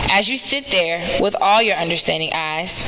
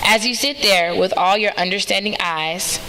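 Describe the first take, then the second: No difference in how they are said.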